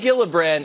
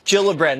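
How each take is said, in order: First: The name begins with a hard G sound. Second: The name begins with a soft G sound. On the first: The speaker calls it wrong. "Not Gillibrand" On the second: The speaker calls it right. "it's a soft cheat"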